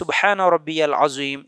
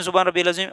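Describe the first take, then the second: First: The phrase is said slowly and calmly. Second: The phrase is said quickly and hurriedly. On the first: The speaker calls it right. "सुकून से ... इस तरह" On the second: The speaker calls it wrong. "जल्दी जल्दी ... ऐसा नहीं बोलना"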